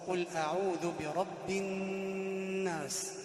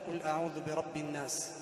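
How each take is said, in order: First: The doubled n is held with a nasal hum. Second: The doubled n is short without nasal hold. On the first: The speaker calls it right. "الصواب أن تقول ... الشدة هذه تعطيها غنة" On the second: The speaker calls it wrong. "لا تقول"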